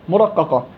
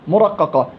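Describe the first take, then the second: Both takes have the same delivery.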